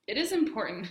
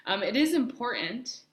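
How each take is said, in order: First: Hiccups. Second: Said in the usual way. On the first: Real, not acted. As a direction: cut off by a hiccup. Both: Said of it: "sorry, I have the hiccups".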